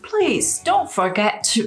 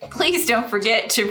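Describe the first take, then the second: First: It is said in a put-on British accent. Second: It is said in the speaker's ordinary accent. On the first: "You have to" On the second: "I should have said that in a British accent"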